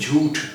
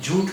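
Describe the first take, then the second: First: The final t sound has a puff of air. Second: The final t sound has no puff of air. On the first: The speaker calls it right. "ये ठा है" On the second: The speaker calls it wrong. "झूठ नहीं, टा नहीं"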